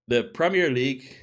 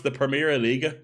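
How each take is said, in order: First: "Premier League" said the English way, League as one syllable; English-style pronunciation. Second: "Premier Liga" with a schwa ending on each word, pruh-MEER-uh LEE-guh; foreign-style pronunciation. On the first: Reading out the French league's name, English-style pronunciation. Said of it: "with a French accent". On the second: Correcting the French league's name, foreign-style pronunciation. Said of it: "would be the actual way of pronouncing it". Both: Shown as a demonstration.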